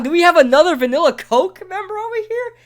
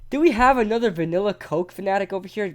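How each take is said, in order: First: High, loud hype call to the crowd; hype announcer. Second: Said in the usual way. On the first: Acted. Streamer hyping up chat about vanilla Coke, loud and high. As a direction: shout it like a stadium announcer.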